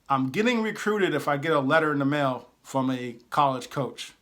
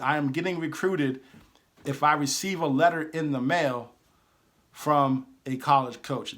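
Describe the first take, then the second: First: It is said at a normal pace. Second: It is said a little more slowly.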